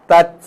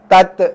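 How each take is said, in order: First: The final t is released with a puff of breath. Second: The final t is released with a bouncing echo. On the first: The speaker calls it right. "dengar sedikit angin keluar" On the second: The speaker calls it wrong. "Itu bunyi qalqalah sudah. Itu bunyi lantunan"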